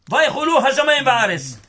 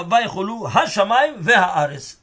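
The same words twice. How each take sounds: First: "Va'aretz" said short as va-aretz, no he; teacher reads the verse aloud with "Va'aretz" clipped; first reading, slip. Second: "Ve'ha'aretz" with the full ve-ha-aretz syllables; re-read the verse, giving "Ve'ha'aretz" every syllable; corrected reading. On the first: Teacher reciting the verse to students, misreading "Va'aretz". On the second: Teacher correcting himself on the verse for his students, careful "Ve'ha'aretz". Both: Shown as a demonstration.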